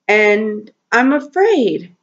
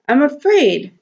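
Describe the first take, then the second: First: Said in the usual way. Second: "I'm afraid." said again higher, pressing on "afraid"; emphatic repeat. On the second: Real, not acted. Owner admitting fear for her cats, emphatic higher repeat. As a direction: lift the repeated "afraid" up high to stress it.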